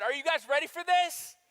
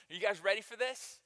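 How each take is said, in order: First: Higher and louder, rallying the crowd; hype call. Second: Said in the usual way. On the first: Real, not acted. Preacher rallying the congregation for a louder answer. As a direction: pump up the room. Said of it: "one more chance". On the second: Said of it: "you guys aren't ready".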